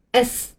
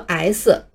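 First: "S" as "ess", short e then a hiss; English letter name "S"; correct letter S. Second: "S" wrongly as two syllables, "ai-si"; Chinese-style misreading of "S" with an "eye" vowel; mispronounced letter S. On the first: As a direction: say "S" with a plain "eh" vowel and trailing s. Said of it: "这个字母在英文里读作". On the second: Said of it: "很多人会错误地读作". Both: Shown as a demonstration.

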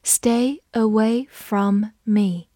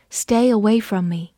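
First: Slow, stretched-out reading. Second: Said in the usual way. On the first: Shown as a demonstration. Teacher reading the sentence slowly. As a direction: read it slowly for learners. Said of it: "我们慢读一遍". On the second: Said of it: "慢读一遍".

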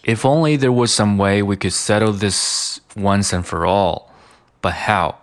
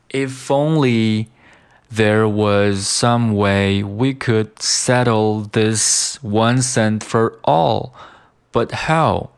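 First: "If only there was some way" flowing in one linked run; connected speech. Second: "If only there was some way" slow, phrase by phrase; slow model reading. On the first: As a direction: link "once and for all", drop the t in "but how". (流畅连读) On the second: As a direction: read "once and for all, but how" deliberately, with pauses. (慢速分段朗读) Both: Shown as a demonstration. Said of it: "就是读成了".

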